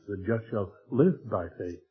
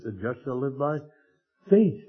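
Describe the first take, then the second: First: The stress falls on the word "live". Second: The stress falls on the word "faith". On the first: "he put the emphasis there on the life" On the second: "put the emphasis on the faith"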